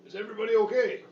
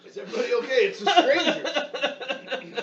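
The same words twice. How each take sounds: First: Calling out. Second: Laughing shout. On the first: Calling through door to family. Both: Acted.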